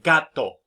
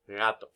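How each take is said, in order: First: The consonants are full stops. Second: The consonants are softened.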